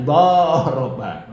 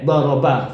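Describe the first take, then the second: First: Doroba with the vowel drawn out long, slowly. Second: Doroba with a short, clipped first a; short vowel. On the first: Teacher showing the lengthened harokat in doroba, drawn out slowly. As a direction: stretch the fathah in doroba, doroobaa, slow. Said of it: "Kemudian kalau dipanjangkan". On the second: Teacher showing the short fathah in doroba, kept short. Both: Shown as a demonstration.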